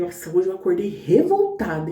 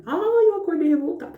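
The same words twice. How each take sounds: First: Said in the usual way. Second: Higher, dragged-out whine on "Ai"; whiny complaint. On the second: Retold or imitated. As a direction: moan it like a grumpy morning. (queixa manhosa e exagerada) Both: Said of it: "eu falei".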